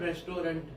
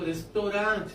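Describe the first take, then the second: First: The word ends with a clear 'nt' sound. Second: The word ends in a nasal vowel, French style. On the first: This is how locals commonly say it. "બોલીએ પણ રેસ્ટોરન્ટ છીએ" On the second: This is the original foreign form. "મૂળ તો French છે એ તો રેસ્ટોરાં છે"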